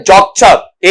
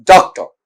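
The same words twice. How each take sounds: First: "डॉक्टर" with full vowels; stressed form. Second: "डॉक्टर" with a reduced last vowel; unstressed form. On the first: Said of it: "एक stressed है". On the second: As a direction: let the ending of "डॉक्टर" weaken to a schwa. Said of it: "एक unstressed है". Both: Shown as a demonstration.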